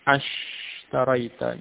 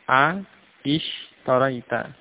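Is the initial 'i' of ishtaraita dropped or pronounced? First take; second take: dropped; pronounced. First: The 'a' runs straight into the 'sh'. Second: The 'a' and the 'i' are both sounded. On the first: This is how it is actually said. The speaker calls it right. "dari tadi A ishtaraita menjadi ashtaraita" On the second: This is the underlying form before the rule applies. The speaker calls it wrong. "jadi secara asal A ishtaraita"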